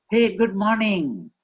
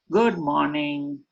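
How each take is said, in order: First: "Hey" high and loud, slow and lifted; bright greeting. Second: Said in the usual way. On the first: Shown as a demonstration. Trainer's second take, a lively hey good morning. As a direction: greet with real delight. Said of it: "slight variation in the emotion". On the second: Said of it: "When I say".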